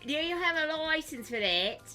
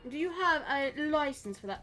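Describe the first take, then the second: First: It is spoken in an Essex accent. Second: It is spoken in a posh British accent. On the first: "doing the Essex" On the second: "this is my British accent"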